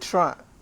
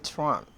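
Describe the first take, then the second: First: The middle syllables are squeezed into a short form. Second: All three syllables are said clearly. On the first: "If I wanted to really be a Torontonian, then I'll say Toronto" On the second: "I can say Toronto"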